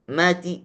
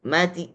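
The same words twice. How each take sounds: The two takes are said the same way.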